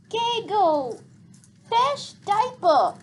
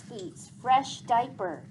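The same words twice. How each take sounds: First: Put-on high, slow whiny little-kid voice; cranky toddler. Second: Said in the usual way. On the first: Little sister demanding a diaper change, high cranky whine. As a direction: drag it out like a fussy toddler. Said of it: "said Boots crankily". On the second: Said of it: "said Gregor".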